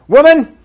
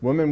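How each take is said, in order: First: The word is said harshly, with angry force. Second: The word is said softly, with kind warmth. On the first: The speaker is condemning her. The speaker calls it wrong. "the passion of Jesus ought to be stirred up" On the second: The speaker is being kind to her. The speaker calls it right. "But he doesn't do that"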